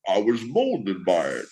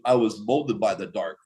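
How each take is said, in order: First: It is said in a Bane impression voice. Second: It is said in the speaker's normal voice.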